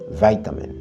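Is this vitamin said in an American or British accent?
American. The first syllable sounds like "vite". "en anglais américain, on dit vitamin"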